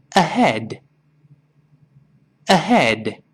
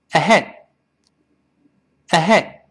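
First: Unhurried "ahead", final d released; slow careful word. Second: Short "ahead" stopped dead on the d; unreleased final d. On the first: Teacher has students read along first, slow careful word. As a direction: model the single word slowly. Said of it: "跟老师先慢慢读这个词". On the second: Teacher drills the faster word, "ahead" with d held back. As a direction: hold the air at the end of "ahead", no burst. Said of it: "憋住这口气". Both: Shown as a demonstration.

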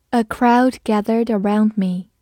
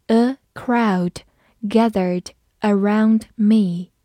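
First: Said in the usual way. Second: A crowd gathered around me said slowly; slow read-along. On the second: Shown as a demonstration. Teacher reading slowly for the class to repeat. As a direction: stretch it out for repetition. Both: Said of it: "我们慢读一遍".

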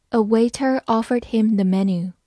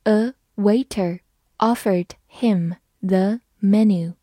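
First: Said in the usual way. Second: Slow, word by word; slow read-through. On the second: Shown as a demonstration. Teacher rereads the menu sentence for learners, slow read-through. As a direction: read it slowly with a gap after each word. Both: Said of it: "好，我们慢读一遍".

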